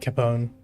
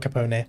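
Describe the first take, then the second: First: The name is said with American pronunciation. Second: The name is said with non-American pronunciation. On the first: The speaker calls it wrong. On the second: The speaker calls it right.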